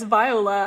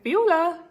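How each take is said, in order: First: The name is pronounced the English way. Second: The name is pronounced the German way. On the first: This is how the speaker introduces herself. "I always thought that was the English translation of my name" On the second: This is how the speaker's German mother says it. "Like Viola, like in German"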